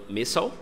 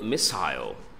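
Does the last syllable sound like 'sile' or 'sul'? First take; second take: sul; sile. First: The last syllable is a reduced 'sul'. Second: The last syllable is a full 'sile'. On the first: "o americano falando missile" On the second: "o australiano falando missile, igual o britânico"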